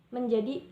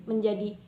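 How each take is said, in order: The two takes are said the same way.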